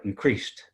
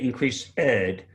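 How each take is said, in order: First: The ending is said quickly without an extra syllable. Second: The ending is said as a separate extra syllable. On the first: The speaker calls it right. "you try and say that fast, and it makes it sound better" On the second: The speaker calls it wrong. "you want to say increased ed"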